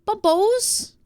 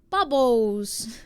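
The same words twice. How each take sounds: First: "Bubbles" high with a questioning rise, BAH-bohz; "Bubbles" lifted high, ending in a long oh; trying out pronunciation. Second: "Bubbles" at normal pitch, BAH-bohz; "Bubbles" settled back down, ending in -bohz; trying out pronunciation. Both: Shown as a demonstration. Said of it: "sounds weird in an American accent".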